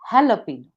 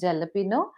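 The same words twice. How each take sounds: First: The word begins with an H sound. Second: The word begins with a J sound. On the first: The speaker calls it right. "The pronunciation begins with ha" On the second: The speaker calls it wrong. "not pronounced as jalapeno"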